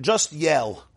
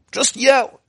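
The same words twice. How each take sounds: First: Said in the usual way. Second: Short, high-pitched yell; sudden demonstrative yell. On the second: Shown as a demonstration. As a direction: throw the voice up high.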